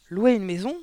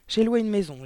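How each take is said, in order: First: Higher, louder question rising sharply at the end; narrated outburst of indignant disbelief; outraged yell. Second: Higher, louder declarative with falling end; firm announcement. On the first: Aunt to niece who rented a house, outraged yell. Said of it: "a-t-elle hurlé". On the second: Niece tells her aunt she is leaving, announcing firmly. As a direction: announce it as settled news. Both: A narrator's reading.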